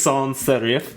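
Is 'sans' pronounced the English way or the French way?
French. The word sans has a French pronunciation. "no one says sans serif"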